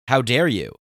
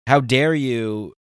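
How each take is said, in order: First: Indignant. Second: How dare you, slow and louder, stretched out; slow indignant outrage. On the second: Telling off Patreon over the new fees, slow retold outrage. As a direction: drag out each word of the retold outrage. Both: Retold or imitated. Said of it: "I blew a gasket and lost my mind".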